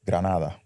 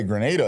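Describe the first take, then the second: First: It is said with a Spanish pronunciation. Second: It is said with an American pronunciation.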